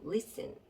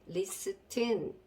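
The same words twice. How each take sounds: First: The t in the middle is silent. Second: The t in the middle is pronounced. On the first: The speaker calls it right. "이러고 발음을 해주셔야 되겠습니다" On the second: The speaker calls it wrong. "이렇게 발음을 해주시면 안 되고"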